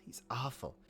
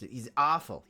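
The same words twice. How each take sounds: First: Softer muttered repeat of "awful"; a quiet rueful echo of "he's awful". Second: Said in the usual way. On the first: Real, not acted. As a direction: drop it away, half to yourself. Repeats, second time quieter.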